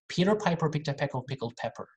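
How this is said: It is spoken in an American accent. "we can do this in American"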